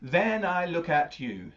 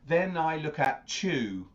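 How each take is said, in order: First: The word you is said carefully and separately. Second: The t and y merge into a ch sound. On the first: The speaker calls it right. "Could you say that word you really carefully?" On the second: The speaker calls it wrong. "it doesn't sound like then I look at chew, like a chew"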